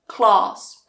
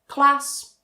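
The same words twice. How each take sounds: First: The vowel is long, as in father. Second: The vowel is short, as in trap. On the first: The speaker is from the south of England. "in the south, you will hear that very long ah sound" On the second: The speaker is from the north of England. "in the north, you will hear that very short ah"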